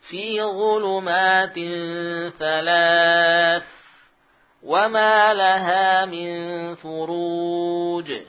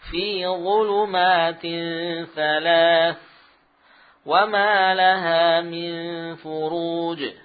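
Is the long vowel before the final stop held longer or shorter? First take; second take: longer; shorter. First: The final long vowel is held very long. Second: The final long vowel is held moderately long. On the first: "atau enam harakat" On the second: "mad harakat"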